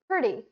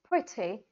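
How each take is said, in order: First: It is said in an American accent. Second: It is said in a British accent. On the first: "So in American accent" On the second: "Whereas in British accent"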